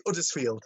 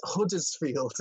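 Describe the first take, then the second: First: "Uddersfield" with no H at the front; dropped H. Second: "Huddersfield" with the H pronounced; sounded H. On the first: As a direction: say "Uddersfield" starting straight on the vowel. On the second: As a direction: say "Huddersfield" slowly, H clearly voiced. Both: Shown as a demonstration. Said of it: "You just don't pronounce the H".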